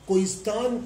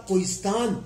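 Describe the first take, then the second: No difference in how they are said.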